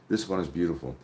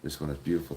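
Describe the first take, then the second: First: It is read at a louder volume. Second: It is read at a quieter volume.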